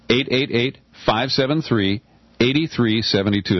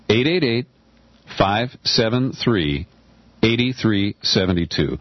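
First: The number is said at a quick pace. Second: The number is said very slowly.

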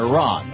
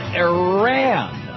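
First: The name has a pronunciation closer to native. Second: The name has an anglicized pronunciation. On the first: The speaker calls it right. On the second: The speaker calls it wrong.

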